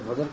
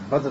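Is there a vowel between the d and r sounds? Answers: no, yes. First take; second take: yes; no. First: A short vowel is heard between d and r. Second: No vowel is heard between d and r. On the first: The speaker calls it wrong. "آپ لوگ شاید بدر کہتے ہیں" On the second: The speaker calls it right. "بدر دال پر زبر نہیں"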